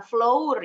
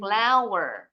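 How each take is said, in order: First: Flour misread with an O, "flo-oor". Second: Flour said "FLAU-wer"; flour like flower. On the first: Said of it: "bukan flour ya bacanya". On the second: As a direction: say flour exactly like the word flower. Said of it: "bacanya seperti bahasa Inggrisnya bunga". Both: Shown as a demonstration.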